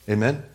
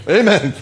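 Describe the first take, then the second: First: Said in the usual way. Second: Loud, high mock amen; startled dozer's amen. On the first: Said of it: "How many of you say amen". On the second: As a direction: blurt it out like a dozer jolted awake. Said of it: "someone falling asleep".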